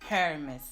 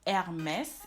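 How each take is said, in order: First: The starting H sound is pronounced. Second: The starting H sound is silent. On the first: "instead of saying Hermès" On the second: "you do say Hermès"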